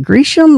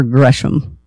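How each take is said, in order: First: First syllable of "Gresham" rhymes with tree; long-e pronunciation. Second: First syllable of "Gresham" rhymes with fresh; short-e pronunciation. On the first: Host asking founder about the name, "Gresham" pronounced GREE-shum. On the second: Host offering founder the alternative, "Gresham" pronounced GRESH-um. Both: Shown as a demonstration.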